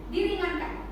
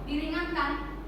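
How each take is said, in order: Both takes have the same delivery.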